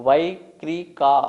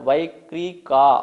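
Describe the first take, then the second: The two takes are said the same way.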